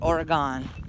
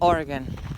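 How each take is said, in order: First: The name is said the way outsiders say it. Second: The name is said the way locals say it. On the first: This is how people from elsewhere say it. The speaker calls it wrong. "not Oregon" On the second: This is how people who live there say it. The speaker calls it right. "we pronounce it Oregon"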